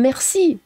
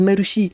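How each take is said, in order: First: It is said with a French accent. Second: It is said with a Japanese accent.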